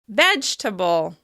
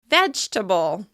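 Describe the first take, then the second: First: The word is said with three syllables. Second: The same.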